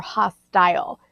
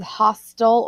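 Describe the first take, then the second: First: "hostile" ending like "tile"; "hostile" with a full long i at the end; long-i pronunciation. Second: "hostile" ending like "hostel"; "hostile" with a reduced second syllable; short-ending pronunciation. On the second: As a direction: say "hostile" as HOS-tul. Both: Shown as a demonstration. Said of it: "It's pronounced two different ways".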